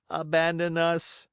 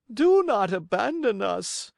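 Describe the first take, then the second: First: Just parrot the fox's words; echoing cat. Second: High, loud desperate plea; cling to him pleading; begging fox. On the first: Cat echoes flatly. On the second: Fox begs. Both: Acted.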